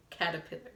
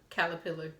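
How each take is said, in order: First: "caterpillar" with the T sounded; careful pronunciation. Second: "caterpillar" with an L-like sound for the T; unsure pronunciation. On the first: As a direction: try "caterpillar" again as cat-a-pillar. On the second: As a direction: say "caterpillar" as if it were "calapillar". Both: Shown as a demonstration. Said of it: "How you say caterpillar?".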